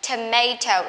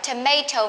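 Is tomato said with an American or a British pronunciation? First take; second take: American; American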